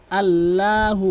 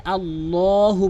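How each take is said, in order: First: আল্লাহু with a thin "laa" in the middle; common mispronunciation. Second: আল্লাহু with full, rounded "law"; correct heavy L. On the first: Teacher showing the common error, আল্লাহু with thin L. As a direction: say আল্লাহু with light, open "laa". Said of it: "অধিকাংশ লোক আল্লাহু বলে". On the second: Teacher showing what must be said, আল্লাহু with heavy L. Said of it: "এখানে আল্লাহু বলতে হবে". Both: Shown as a demonstration.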